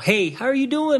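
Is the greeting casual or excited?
excited. The greeting sounds warm and excited.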